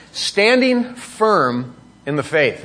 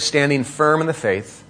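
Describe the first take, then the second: First: "standing firm in the faith" drawn out slowly, weight on "standing"; slow emphasis. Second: Said in the usual way. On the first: Shown as a demonstration. Preacher stressing a key phrase to his church, slowly. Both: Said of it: "just underline that little phrase".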